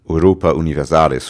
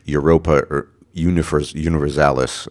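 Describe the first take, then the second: First: The name is pronounced the Latin way. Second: The name is pronounced the English way. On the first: "I use the uh, Latin pronunciation there" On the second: "I guess you would say in, in, in English"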